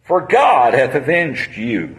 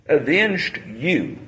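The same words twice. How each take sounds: First: "God" leaned on, whole line slowed; measured verse reading; slow stress on God. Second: Avenged you repeated softer and slowed right down; hushed echo of the verse. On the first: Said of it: "reading verse". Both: Shown as a demonstration.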